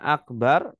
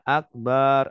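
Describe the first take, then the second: First: The final vowel is short. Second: The final vowel is long. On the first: It means very great. The speaker calls it right. "Harusnya akbar" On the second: It means drum. The speaker calls it wrong. "Kalau baknya dipanjangkan artinya gendang"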